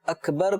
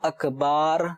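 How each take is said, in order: First: The last syllable has a short vowel. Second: The last syllable has a stretched, long vowel. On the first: The speaker calls it right. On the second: The speaker calls it wrong.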